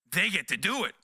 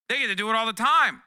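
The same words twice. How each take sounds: First: Said in the usual way. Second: Louder, higher, leaning on time; emphatic repeat. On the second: Real, not acted. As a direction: hit it harder the second time. Repeated punchline, louder take.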